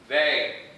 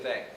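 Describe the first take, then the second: First: The word is barked sharply and forcefully. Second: The word is said softly and casually. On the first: It is an angry, scolding correction. The speaker calls it wrong. "I'm not going to bark at you" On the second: It is a gentle, offhand correction. The speaker calls it right. "I might casually just say they"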